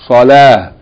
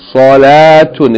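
First: The word ends with a bare h sound. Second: The word ends with a vowel and an n sound. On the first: The reader stops on this word. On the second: The reading continues past the word.

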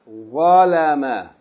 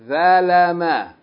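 First: The first consonant is an emphatic, heavy sound. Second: The first consonant is a plain, light sound. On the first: The speaker calls it right. "But here we say what?" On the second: The speaker calls it wrong. "if we pronounce it as the letter thal, we would say"

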